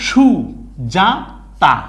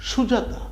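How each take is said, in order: First: Three separate beats, সু, যা, তা, with pauses between; syllable by syllable. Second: Said in the usual way. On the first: Shown as a demonstration. Teacher shows how to read the word, syllable by syllable. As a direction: read Sujata one isolated syllable at a time. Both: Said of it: "আপনি এখানে এসে কি পড়বেন?".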